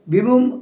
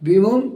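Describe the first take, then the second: The two takes are said the same way.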